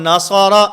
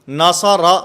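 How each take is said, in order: The two takes are said the same way.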